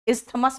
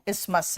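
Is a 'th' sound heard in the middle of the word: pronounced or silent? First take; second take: pronounced; silent. First: A 'th' sound is heard in the middle. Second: No 'th' sound is heard in the middle. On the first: The speaker calls it wrong. "इस्थमस मत कहना" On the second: The speaker calls it right. "उसमें टी एच silent है"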